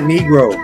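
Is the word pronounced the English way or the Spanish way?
English. The word has an English pronunciation. The speaker calls it wrong. "In Spanish, it's not Negro"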